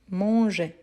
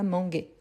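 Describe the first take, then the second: First: The g is soft, like the s in measure. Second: The g is hard, like the g in go. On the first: The speaker calls it right. "on dit manger" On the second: The speaker calls it wrong. "et pas manger ... pour ne pas avoir le son de ga"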